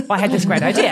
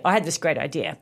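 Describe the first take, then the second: First: Confident claim. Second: Said in the usual way. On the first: Shown as a demonstration. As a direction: say it proudly, with a laugh. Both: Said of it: "I would say".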